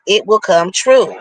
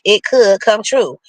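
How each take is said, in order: First: Said in the usual way. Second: Could given the stress, said firmly. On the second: Shown as a demonstration. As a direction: lean on the word could.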